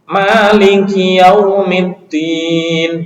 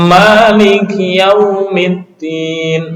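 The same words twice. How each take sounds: First: The ma syllable sounds light and thin. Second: The ma syllable sounds heavy and thick. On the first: The speaker calls it right. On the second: The speaker calls it wrong.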